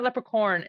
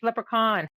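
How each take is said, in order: First: The last syllable sounds like 'corn'. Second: The last syllable does not sound like 'corn'. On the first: The speaker calls it wrong. "it's not leprechaun" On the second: The speaker calls it right. "it's leprechaun"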